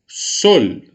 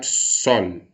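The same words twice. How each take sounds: First: "sol" with a closed, rounded o; louder "sol" on a closed o, Spanish style; closed vowel. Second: "sol" with an open ó, Portuguese style; open vowel. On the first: Teacher shows the Spanish version, closed vowel. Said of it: "Todas as palavras têm vogais fechadas". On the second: Teacher shows what not to say, open vowel. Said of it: "não vou falar sol". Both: Shown as a demonstration.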